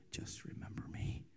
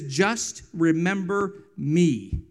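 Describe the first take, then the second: First: A soft unvoiced whisper, barely there; whispered prayer. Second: Slow plea. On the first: Mother turning to God in hardship, whispering. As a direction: breathe it like a private prayer. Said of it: "she would turn to her left and she would say". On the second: Retold or imitated. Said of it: "and he says".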